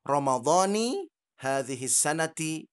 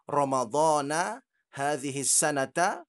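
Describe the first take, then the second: First: The words end with an i vowel. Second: The words end with an a vowel. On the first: "Kemudian ada lagi yang mengatakan" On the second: "ada yang mengatakan lafal niatnya adalah"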